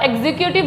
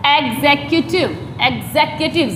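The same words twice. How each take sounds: First: "एग्जीक्यूटिव" with a weak second syllable; common mispronunciation. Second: "एग्जीक्यूटिव" as eg-ZEK-yoo-tiv; "एग्जीक्यूटिव" in careful syllables with open zek; correct pronunciation. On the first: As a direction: say "एग्जीक्यूटिव" the common run-together way. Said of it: "बोलते हैं ज़्यादातर". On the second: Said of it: "इसका सही pronounce जो है". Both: Shown as a demonstration.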